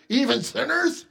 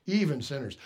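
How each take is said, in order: First: Higher, rising, offended repeat of "Even sinners?"; indignant echo. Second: Said in the usual way. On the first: Retold or imitated. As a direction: toss "Even sinners?" back in disbelief. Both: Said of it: "Can't you just hear it?".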